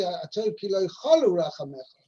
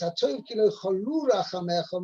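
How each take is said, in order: First: "cholu" with the stress on CHO, CHO-lu; stress on first syllable. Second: "cholu" with the stress on LU, cho-LU; stress on second syllable. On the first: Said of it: "wouldn't be correct". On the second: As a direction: lean on the last syllable of "cholu". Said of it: "emphasis is on the second syllable". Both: Shown as a demonstration.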